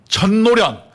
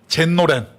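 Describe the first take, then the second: First: The name is said with Korean sounds. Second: The name is said with Japanese sounds. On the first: "한국말로" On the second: "일본 발음으로"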